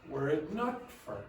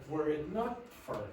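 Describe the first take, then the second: The two takes are said the same way.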